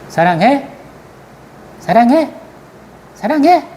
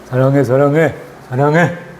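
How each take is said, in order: First: It is asked teasingly, like a question. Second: It is said flatly in one tone.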